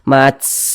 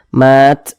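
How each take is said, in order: First: The final t ends with a strong, long hiss. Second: The final t ends with a small, light puff. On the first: The speaker calls it wrong. "nanti desisnya itu berlebihan, mats ah, tidak seperti itu" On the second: The speaker calls it right. "jadi memercik saja, mat, nah seperti itu"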